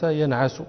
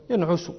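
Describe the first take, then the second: First: "ينعس" said yan'asu; fatha on middle letter. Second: "ينعس" said yan'usu; rounded 'u' after the ayn in "ينعس"; damma on middle letter. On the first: Teacher giving the verb's first pattern, "ينعس" with fatha. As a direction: open 'a' after the ayn in "ينعس". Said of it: "كمنع". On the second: Teacher giving the verb's second pattern, "ينعس" with damma. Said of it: "وكنصر، أي تقول في مضارعه". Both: Shown as a demonstration.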